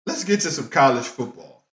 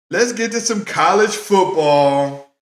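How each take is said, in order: First: Said in the usual way. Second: Hyped radio segment intro; announcer intro. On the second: Acted. Repeats it as a show segment intro.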